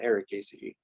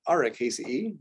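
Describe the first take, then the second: First: It sounds just like the word Ericaceae. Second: The first vowel is exaggerated to sound distinct. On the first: This is how many others say it. The speaker calls it wrong. "it sounds like they're saying the same thing" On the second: It is kept apart from the similar family name. The speaker calls it right. "I'm going to exaggerate the difference"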